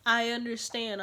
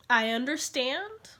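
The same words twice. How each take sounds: First: Said in the usual way. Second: Slow, rising "I understand"; questioning concession. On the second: Real, not acted. Conceding to the friend, "I understand" drawn out and rising. Hesitant concession, then repeated plainly.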